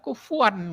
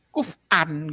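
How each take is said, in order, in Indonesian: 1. Ada bunyi w di tengahnya. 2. Ada hamzah di tengahnya. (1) "orang Quraisy nggak mau gitu baca seperti itu, makanya kufuwan" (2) "orang-orang Bani Tamim mungkin kan kuf'an gitu"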